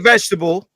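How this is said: It is said in an American accent. "you say vegetable"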